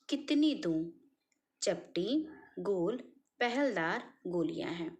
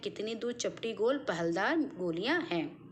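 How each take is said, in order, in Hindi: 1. 'doon' के बाद प्रश्न वाला विराम है। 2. 'doon' के बाद कोई विराम नहीं है। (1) "विराम चिन्ह का प्रयोग करते तो यही गद्यांश का सही भाव निकल कर आता" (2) "बात क्या इन्होंने कहा कुछ समझ में नहीं आया"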